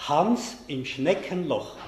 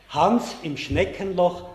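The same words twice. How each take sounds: The two takes are said the same way.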